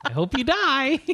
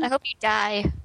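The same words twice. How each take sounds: First: High, bright sing-song wish; mock cheerful. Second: Cheerful. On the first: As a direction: chirp it like good news. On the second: Acted.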